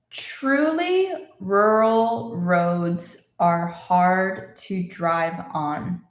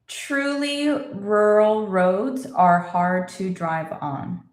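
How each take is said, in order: First: It is spoken very slowly and carefully. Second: It is spoken slowly, slightly quicker than before. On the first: "let's say it again slowly" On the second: "A little faster"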